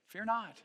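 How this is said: It is said as a calm, simple statement. It is a gentle reassurance. The speaker calls it right. "It's almost more like just a simple statement"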